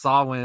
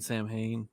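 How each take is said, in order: First: It is said as sow-in, with no h. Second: It is said as sam-hain, with an h. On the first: The speaker calls it right. "It's Salwin" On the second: The speaker calls it wrong. "mispronouncing Salwin as Sam Hain"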